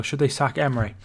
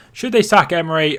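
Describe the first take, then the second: First: Said in the usual way. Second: Louder, with "they" pushed; louder repeat. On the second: Real, not acted. Streamer repeating a chat question to viewers, louder. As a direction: put the question to the room.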